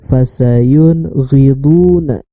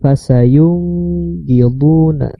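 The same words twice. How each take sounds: First: The n sound is said clearly. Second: The n sound is blurred, not clear. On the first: The speaker calls it right. "Harus jelas itu" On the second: The speaker calls it wrong.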